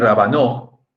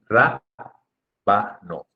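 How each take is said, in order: First: The stress is on the last syllable. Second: The stress is on the first syllable. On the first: The speaker calls it wrong. "rabanó sería si fuera aguda" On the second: The speaker calls it right. "Y por eso se dice rábano"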